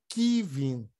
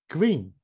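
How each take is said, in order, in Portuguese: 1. Um som de vogal separa o k e o v. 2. O k e o v são falados juntos, sem vogal. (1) "Não pode falar ... nem que vim" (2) "Tem que sair tudo junto"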